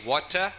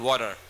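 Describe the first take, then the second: First: "water" with a crisp T; British "water". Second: "water" with the T turned into a D; American "water". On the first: Teacher asking students to hear the difference, "water" with a clear T. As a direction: hit a clean British T in "water". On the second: Teacher giving the contrast to students, "water" with a flapped D. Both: Shown as a demonstration. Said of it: "Can you hear the difference?".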